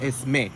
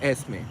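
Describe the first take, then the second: First: The stress is on the last syllable. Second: The stress is on the first syllable. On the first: The speaker calls it wrong. "They put the accent in the wrong place" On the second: The speaker calls it right. "in Spanish it's Esme"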